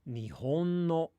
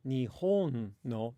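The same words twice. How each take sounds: First: Pitch stays level across Nihon without a fall. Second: Pitch goes low, high, then low within Nihon. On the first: "they'll change it to a flat pattern" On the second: "they won't say Nihon no"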